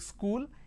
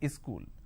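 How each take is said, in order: First: The word starts directly with the s sound. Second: An extra vowel is added before the s sound. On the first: The speaker calls it right. "instead of saying school" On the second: The speaker calls it wrong. "they add a E in front"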